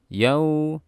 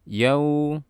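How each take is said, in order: The two takes are said the same way.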